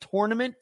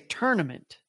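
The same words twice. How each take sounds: First: The first syllable sounds like tour. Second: The first syllable sounds like turn.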